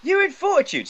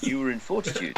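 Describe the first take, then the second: First: Much higher, squeaky mock voice. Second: Lower voice. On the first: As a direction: say it way up high. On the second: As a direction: lower and softer, deliberate. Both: Shown as a demonstration. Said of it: "I'll say that in a lower voice".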